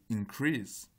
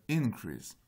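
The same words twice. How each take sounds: First: Increase slow, with stress on CREASE, like the English verb; stress on the second syllable. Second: Increase with stress on IN, like the English noun; stress on the first syllable. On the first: (accent sur la deuxième syllabe : in-CREASE, dit lentement) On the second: (accent sur la première syllabe : IN-crease) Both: Shown as a demonstration. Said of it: "On a une différence d'accent entre les deux".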